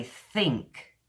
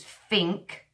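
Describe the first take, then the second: First: "think" with a dental th, not an f; native th. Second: "think" pronounced "fink"; Cockney f for th. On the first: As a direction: say "think" like a native Brit, tongue between teeth. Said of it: "a native Brit will say think". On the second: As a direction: demonstrate Cockney "think", with f in place of th. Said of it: "if you want to learn the Cockney English". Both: Shown as a demonstration.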